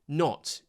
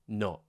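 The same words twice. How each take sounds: First: The final T is clearly released. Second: The final T becomes a glottal stop.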